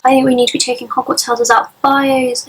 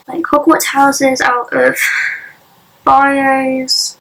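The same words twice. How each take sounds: First: Muffled behind a hand; hand over mouth. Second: Said in the usual way. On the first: Real, not acted. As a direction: talk through your hand. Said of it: "I've gotta got my hand over my mouth". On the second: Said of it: "hand over my mouth".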